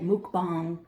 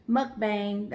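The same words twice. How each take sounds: First: Mukbang with "muk" like "book"; mukbang pronunciation. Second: Mukbang with "muk" like "much"; mukbang pronunciation. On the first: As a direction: say mukbang as "mook-bang". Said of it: "I know people say mukbang". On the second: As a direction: say mukbang as "muck-bang". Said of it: "I've heard it said different ways". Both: Shown as a demonstration.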